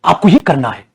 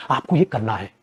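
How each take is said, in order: First: Said in the usual way. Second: Softer, dropped-down take of आपको ये करना है; quiet. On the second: Shown as a demonstration. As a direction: say आपको ये करना है softly, almost to yourself. Teacher repeats instruction. (आपको ये करना है धीमी नरम आवाज़ में)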